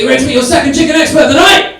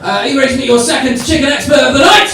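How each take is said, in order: First: Louder, higher crowd-rousing call; full-on MC hype. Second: Raised, high announcer's call; hyping the crowd. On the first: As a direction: announce it properly, at full showman volume. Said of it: "So let's do it properly". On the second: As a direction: build to a loud question for the crowd. Host hypes up the next act. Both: Real, not acted.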